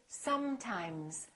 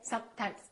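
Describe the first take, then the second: First: The s and m sounds are held long. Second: The s and m sounds are cut short. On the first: The speaker calls it right. "So take your time and fully pronounce the continuant. So I want you to say sometimes" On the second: The speaker calls it wrong. "Don't say sometimes"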